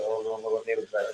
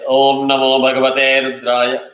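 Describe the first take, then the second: First: It is mumbled quietly. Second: It is screamed loudly. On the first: "You can't mumble" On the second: "can't scream"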